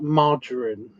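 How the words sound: It is said in a posh-sounding way. This makes the word sound more upper-class. "margarine sounds a lot more posh"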